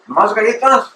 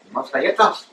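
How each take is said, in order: First: "¿Más galletas?" echoed higher and louder, incredulous; mock disbelief. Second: Said in the usual way. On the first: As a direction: echo "¿Más galletas?" as a stunned vendor. Vendor lady echoes in disbelief.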